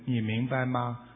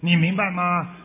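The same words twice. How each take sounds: First: The question is said softly without added emphasis. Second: The question is said with heavy, forceful emphasis. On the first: The reader simply relays the words neutrally. The speaker calls it right. "你说师父说应该是这样，" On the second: The reader copies a stern, scolding tone. The speaker calls it wrong. "你念的人也说，"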